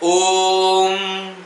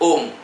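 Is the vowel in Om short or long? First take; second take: long; short. First: The vowel is drawn out at length. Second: The vowel is held only briefly. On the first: It is the sacred syllable. "ते जे येतं ते दीर्घ आहे" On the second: It is a person's name. "ते ह्रस्व केलं जातं"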